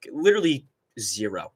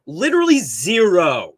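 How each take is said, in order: First: Said in the usual way. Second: "Literally zero" slower and louder, each word hit hard; "Literally zero" को धीमे और ज़ोर देकर बोलना; emphatic repeat. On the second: Real, not acted.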